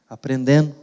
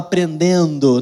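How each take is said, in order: First: The final syllable is almost dropped. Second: The final syllable is pronounced clearly. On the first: This is how people in the region talk. The speaker calls it wrong. "Eu quase não falei a última sílaba" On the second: This is the form the child does not hear. The speaker calls it right. "Por que ele vai falar aprendendo? Não vai falar"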